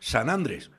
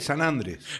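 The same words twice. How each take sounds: First: The stress is on the first syllable of Andrés. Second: The stress is on the last syllable of Andrés. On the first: The speaker calls it wrong. "porque no está tildada la aguda" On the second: The speaker calls it right. "y es San Andrés"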